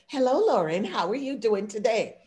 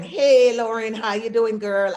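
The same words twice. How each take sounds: First: Proper, measured workplace hello; office-polite greeting. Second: Put-on loud, loose friendly hey to a girlfriend; casual greeting to a friend. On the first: Retold or imitated. Greeting Lauren at the office, formally polite. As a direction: greet a colleague correctly, buttoned-up. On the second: Greeting her friend Lauren outside work, casually loud. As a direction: call out to a close friend, relaxed. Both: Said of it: "That is code switching".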